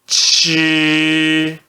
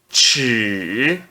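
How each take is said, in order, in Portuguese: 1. É dito com o primeiro tom. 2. É dito com o terceiro tom. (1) "C H no primeiro tom" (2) "No terceiro tom"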